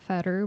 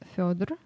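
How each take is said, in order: First: The name is said in an Americanized form. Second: The name is said in its native form. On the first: The speaker calls it wrong. "it's not fatter" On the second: The speaker calls it right. "but it's Fyodor"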